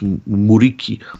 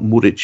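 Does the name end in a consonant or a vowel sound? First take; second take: vowel; consonant. First: The name ends on a vowel sound. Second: The name ends on a consonant sound. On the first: This is how the name is said in Kosovo. The speaker calls it right. "which is how the Kosovans say it" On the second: This is how the name is said in Turkey. The speaker calls it wrong. "It's not Muric"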